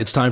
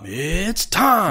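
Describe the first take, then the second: First: The phrase is said quickly in a plain voice. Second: The phrase is drawn out with dramatic building energy. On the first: "If I were to start my show by saying, all right, it's time for Dogma Debate" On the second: "the build up"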